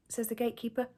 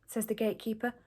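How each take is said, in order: Both takes have the same delivery.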